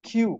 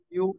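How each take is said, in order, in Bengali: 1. প্রথম ধ্বনিটি aspirated 'kh'। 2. প্রথম ধ্বনিটি সাধারণ, আনঅ্যাসপিরেটেড 'k'। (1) "নতুন করে আমরা যেটা শুদ্ধ প্রনাউন্সিয়েশন উচ্চারণ" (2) "আগে যেটা উচ্চারণ করেছিলাম আমরা কিউ, এটা আমরা এখন থেকে ভুলে যাই।"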